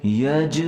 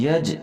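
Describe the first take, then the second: First: یج with the ج bounced out in a short echoing release; qalqala on jeem. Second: یج with the ج closed flat and no bounce; wrong, no qalqala. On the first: Teacher shows students qalqala on یج. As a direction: pop the ج of یج with qalqala. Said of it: "یہاں جیم کے اوپر ہم قلقلہ کریں گے". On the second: Teacher shows students the wrong flat یج. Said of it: "یوں نہیں بولیں گے". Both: Shown as a demonstration.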